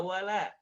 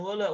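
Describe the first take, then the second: First: "wala" with two pure open A sounds; correct open A. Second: "wala" said as wola; "wala" with O colouring; wrong O vowel. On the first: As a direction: model "wala" wide open on la. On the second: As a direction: show the mistake, "wala" rounded to wolo. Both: Shown as a demonstration. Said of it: "bukan wala".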